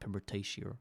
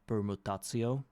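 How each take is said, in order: First: The word is said with an English pronunciation. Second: The word is said with a Russian pronunciation. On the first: "So I'm calling it like in English" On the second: "Like in Russian, it would be permutatio, like th- with that sound"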